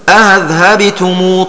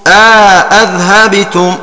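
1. الهمزة الثانية مسهلة، دون إدخال ألف بينهما. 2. الهمزة الثانية محققة، مع إدخال ألف بينهما. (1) "يسهل الثانية من غير إدخال" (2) "والتحقيق ... مع الإدخال"

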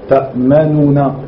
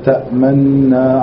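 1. Une voyelle 'u' brève est entendue avant la dernière syllabe. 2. Aucune voyelle 'u' n'est entendue ; le son n est doublé. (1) "Ta'manuna en prononçant cela" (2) "sans entendre le son de Ad-Dhamma"

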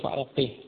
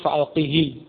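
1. Kata ini berakhir dengan bunyi h saja. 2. Kata ini berakhir dengan vokal i pendek. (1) "kemudian dibaca dengan sukun" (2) "Jadi asalnya fa'alqihi"

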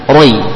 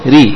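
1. Bunyi r tebal, dengan vokal yang membulat. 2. Bunyi r tipis, dengan vokal i yang jelas. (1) "Jadi jangan dibaca roi" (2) "tapi ketika dikasrah tipis"

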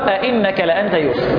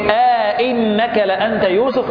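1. لا يفصل بين الهمزتين أي مدّ طويل. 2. ألف طويلة 'a' تفصل بين الهمزتين.

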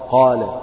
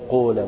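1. الحركة الطويلة 'aa' مفتوحة. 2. الحركة الطويلة مدورة نحو 'oo'. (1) "وافتح الفكين وقول إيه قال" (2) "تجد مثلا البعض ينطق الألف كأنها واو"

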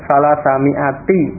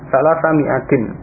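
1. Kata terakhir berakhir tanpa bunyi n. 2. Kata terakhir berakhir dengan bunyi n. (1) "Tetapi kalau tidak dibaca tanwin" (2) "Ini kalau dibaca tanwin, dibaca tanwin"

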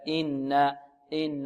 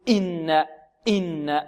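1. الهمزة في أول "إنا" خفيفة وسهلة. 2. الهمزة في أول "إنا" مضغوطة بشدة. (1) "بل يأتي بها سلسة سهلة هكذا" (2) "يتكلف الهمزة في قراءته ويضغط عليها أكثر من اللازم"

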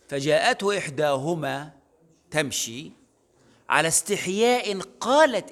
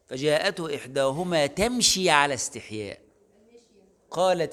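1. تأتي الوقفة بعد 'tamshi'، وقبل 'ala istihya'. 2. تأتي الوقفة بعد 'ala istihya'، وقبل 'qalat'.

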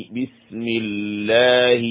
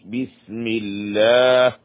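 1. اللام في لفظ الجلالة مرققة وخفيفة. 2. اللام في لفظ الجلالة مرققة وخفيفة.

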